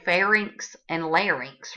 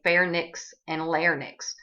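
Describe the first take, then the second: First: The words end with an 'rinks' sound. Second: The words end with a 'nix' sound. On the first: The speaker calls it right. "You heard me say pharynx and larynx, right?" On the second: The speaker calls it wrong. "Most people will say pharynx and larynx. Well, don't be one of those people"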